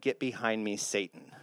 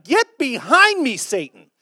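First: Said in the usual way. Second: Loud, high, drawn-out command; sudden fierce rebuke. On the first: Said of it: "so, so one second, he's like". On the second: Acted. Jesus turning on his disciple the next second, loud rebuke. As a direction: burst out slowly and forcefully, then drop on the last word. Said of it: "the next second, he's like".

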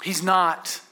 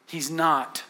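Both takes have the same delivery.

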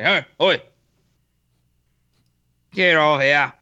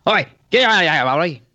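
First: Irish guard's shout slipping into Australian; botched Irish accent. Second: Higher, louder Pikey shout; Pikey accent. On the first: Drunk Irishman guarding whiskey barrels warns off intruders, botched Irish accent. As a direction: attempt an Irish accent that drifts Australian, higher pitched. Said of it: "That turned Australian". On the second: Guard at the barrels chases off intruders, Pikey accent. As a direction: channel a film Pikey accent, chasing someone off. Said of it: "do Pikey". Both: Pretend.

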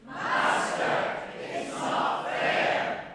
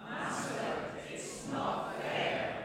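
First: Louder second try at the line; speak very loud. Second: Softer, barely voiced congregation line; too quiet. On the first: Congregation repeating it louder for the king, now loud. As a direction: say it so the deaf king hears. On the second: Congregation's first try at the line, too soft. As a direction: mumble it, not loud enough yet. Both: Real, not acted. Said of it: "they had to speak very loud".

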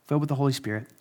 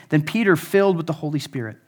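First: Filled leaned on, the phrase dropped much softer and lower; stress on filled. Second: Said in the usual way. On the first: Shown as a demonstration. Preacher repeating the verse, hushed, stress on filled. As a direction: hush the line and press on filled.

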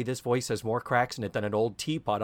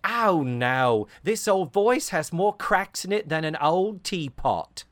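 First: Said in the usual way. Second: Hammed-up Cockney, slow and higher; Cockney lament. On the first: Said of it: "for her to say". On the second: Host imitating [name]'s Cockney protest about her voice. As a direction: play the old singer mourning her voice. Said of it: "And she says".

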